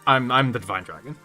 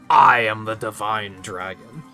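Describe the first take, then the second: First: It is said hesitantly and embarrassed. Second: It is said confidently and clearly.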